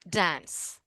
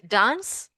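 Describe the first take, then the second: First: It is said in an American accent. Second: It is said in a British accent. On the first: "Americans say dance" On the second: "British people say dance"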